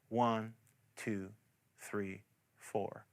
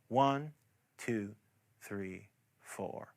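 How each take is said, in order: The two takes are said the same way.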